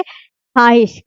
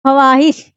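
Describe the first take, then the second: First: ख्वाहिश slowly as "khaahish", no "w"; slow "khaa-hish", the vav dropped; silent vav. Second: ख्वाहिश broken open as "kha-waahish"; "kha-waa-hish", the written vav pronounced; old wrong reading. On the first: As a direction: say ख्वाहिश straight from "kh" to long "aa". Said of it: "but हम अब क्या पढ़ेंगे". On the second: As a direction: sound the "w" clearly in ख्वाहिश. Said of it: "पढ़ रहे थे". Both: Shown as a demonstration.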